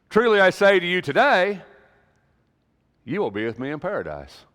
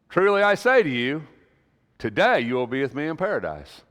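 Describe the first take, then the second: First: The pause comes after "today". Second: The pause comes before "today".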